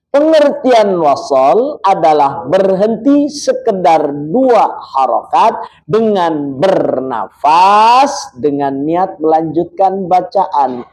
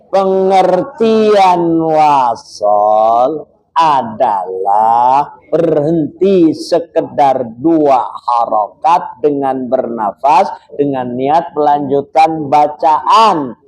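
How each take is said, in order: First: The sentence is read at a normal pace. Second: The sentence is read more slowly.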